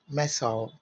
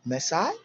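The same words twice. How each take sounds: First: British missile as "Meso," falling; "Meso," with a short second vowel, labelled British; British pronunciation. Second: American missile as "Maasai," rising; "Maasai," lifted at the end, labelled American; American pronunciation. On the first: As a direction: say "Meso," as "MESS-al". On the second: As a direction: say "Maasai," as "mess-eye". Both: Shown as a demonstration.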